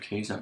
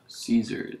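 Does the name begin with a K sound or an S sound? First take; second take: K sound; S sound. First: The name begins with a K sound. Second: The name begins with an S sound. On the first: "Kazar is the correct pronunciation of the word" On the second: "Caesar is the way I say it"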